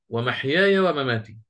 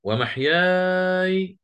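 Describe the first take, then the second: First: Said in the usual way. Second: ومحياي with the long vowel before the silent ya held six counts; long madd. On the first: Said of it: "ووجه الفتح". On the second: Shown as a demonstration. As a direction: slowly stretch ومحياي, the ya kept silent. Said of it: "وجه الإسكان ووجه الفتح".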